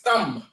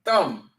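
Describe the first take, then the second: First: The word ends on the m sound. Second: The same.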